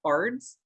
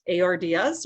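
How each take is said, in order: First: Ards said as a single word; one-word pronunciation. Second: A R D S said letter by letter; spelled-out pronunciation. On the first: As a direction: run the letters together into one syllable, ards. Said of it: "or is it ards". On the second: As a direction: say A R D S as four separate letters. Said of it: "is it pronounced". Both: Shown as a demonstration.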